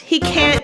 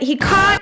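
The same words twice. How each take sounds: First: The word can't has an American accent. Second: The word can't has a British accent.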